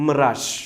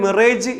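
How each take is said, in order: First: മിറാഷ് ending in a soft "raash"; correct pronunciation. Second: മിറേജ് ending in "rayj"; common misreading. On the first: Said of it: "കൃത്യമായ ഉച്ചാരണം". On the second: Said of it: "നമ്മളിതിനെ". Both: Shown as a demonstration.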